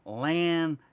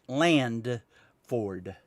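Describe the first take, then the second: First: No d sound follows lan in the name. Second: A d sound follows lan in the name. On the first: The speaker calls it right. "L A N is Lanford" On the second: The speaker calls it wrong. "I put a D at the end of the land and made it Landford"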